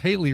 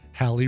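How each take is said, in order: First: The name rhymes with Daly. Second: The name rhymes with Valley. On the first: "or sometimes Haley rhyming with Daly" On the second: "usually pronounced Halley rhyming with Valley"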